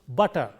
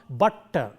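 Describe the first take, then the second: First: The middle t sound is short and single. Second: The middle t sound is held long. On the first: The speaker calls it right. "it will be pronounced as though there is a single T there" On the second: The speaker calls it wrong. "It is not butter. When you say butter, the T is prolonged"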